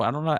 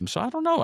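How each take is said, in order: First: Said in the usual way. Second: A sudden high squeak on "know" that falls; "So I don't know" jumps up high and then drops on "know"; high falling. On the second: Real, not acted. Shrugging off the undecided segment name.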